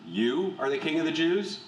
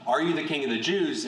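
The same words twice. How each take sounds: First: "You" put first and leaned on, question rising at the end; stress on You. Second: Said in the usual way. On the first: Shown as a demonstration. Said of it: "the emphatic of "you" is used, and it's used first". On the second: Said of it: "So instead of more like".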